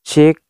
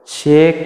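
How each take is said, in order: First: A light echo is just starting to be heard. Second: A loud, strong echo follows the voice. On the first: "baru seperti ini itu echo-nya itu sudah mulai keluar" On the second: "suara echo-nya itu lebih apa namanya, lebih keras"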